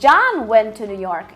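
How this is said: The emphasis falls on John. It was John who went, not someone else. "ele enfatizou John"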